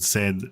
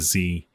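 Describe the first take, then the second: First: The letter is said as "zed". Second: The letter is said as "zee".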